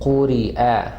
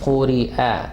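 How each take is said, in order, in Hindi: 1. ग्लॉटल कैच अंतिम स्वर को साफ़ अलग करता है। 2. ग्लॉटल कैच अंतिम स्वर को साफ़ अलग करता है।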